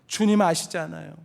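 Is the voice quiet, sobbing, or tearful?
sobbing. It is said while openly sobbing. He has broken down in tears. "울음을 터뜨리며 대답했을지 모릅니다"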